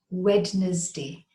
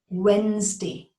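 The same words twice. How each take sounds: First: The D is sounded, giving three syllables. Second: The D is silent, giving two syllables. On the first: The speaker calls it wrong. "not Wednesday. The D is silent and it does not have three syllables" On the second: The speaker calls it right. "The D is silent"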